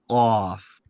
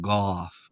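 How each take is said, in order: First: It starts with a deep Q sound. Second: It starts with a voiced G sound. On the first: The speaker calls it right. "more like a Q sound" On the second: The speaker calls it wrong. "You're saying it with like a, a G sound"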